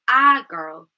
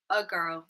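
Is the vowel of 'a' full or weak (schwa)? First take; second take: full; weak. First: The article is stressed with a full vowel. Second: The article has a weak schwa vowel. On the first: The article is being emphasized. "if we want to put emphasis on the structure word, it wouldn't have the schwa sound" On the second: The article is not a key part of the message. "if it's unstressed, we would say a girl"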